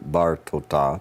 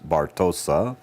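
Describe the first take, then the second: First: The last consonant is a t sound. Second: The last consonant is an s sound. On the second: "yours says Bartosa"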